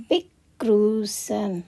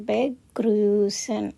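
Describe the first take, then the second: Both takes have the same delivery.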